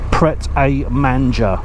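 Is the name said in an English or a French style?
English. It is read with plain English sounds. It is read literally as spelled. The speaker calls it right. "I'm just reading it literally"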